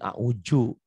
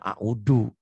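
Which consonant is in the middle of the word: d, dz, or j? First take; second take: j; d. First: The middle consonant is a j sound. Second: The middle consonant is a plain d sound. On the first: This is how Betawi speakers say it. "orang Betawi" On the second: This is how Sundanese speakers say it. "orang Sunda"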